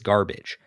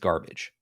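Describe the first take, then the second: First: The word is said more loudly. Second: The word is said at normal loudness.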